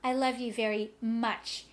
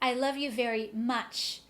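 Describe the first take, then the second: No difference in how they are said.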